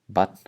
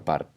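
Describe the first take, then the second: First: A t sound is heard before the final n. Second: An r sound is heard before the final n. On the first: "the R being replaced by a T or the T being inserted" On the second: "Bat or Bart"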